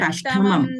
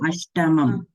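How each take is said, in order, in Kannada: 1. ಮಧ್ಯದ t ಮಹಾಪ್ರಾಣವಾಗಿದೆ, ಉಸಿರಿನೊಂದಿಗೆ. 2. ಮಧ್ಯದ t ಅಲ್ಪಪ್ರಾಣವಾಗಿದೆ, ಉಸಿರಿಲ್ಲದೆ. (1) "Not Ashtamam" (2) "Ashtamam doesn't have Mahaprana"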